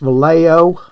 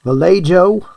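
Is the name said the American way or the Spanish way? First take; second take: American; American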